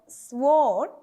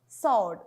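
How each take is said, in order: First: The W sound is pronounced after the S. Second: The W sound is silent after the S. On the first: The speaker calls it wrong. "This is not sword" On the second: The speaker calls it right. "here the W is silent"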